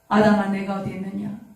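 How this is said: It is said sorrowfully, with aching emotion.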